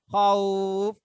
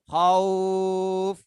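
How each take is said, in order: First: The vowel is held for a short time. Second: The vowel is held for a medium time.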